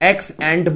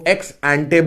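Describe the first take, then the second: First: The second word ends on a consonant. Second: The second word ends on a vowel. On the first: "एक्स एंट बोल दो" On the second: "एक्स एंटे बोल दो, जो तुम्हें ठीक लगे"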